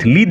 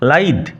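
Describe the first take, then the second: First: The vowel sounds like 'ee'. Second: The vowel sounds like 'eye'. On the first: The speaker calls it wrong. "লিদ নয়" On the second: The speaker calls it right.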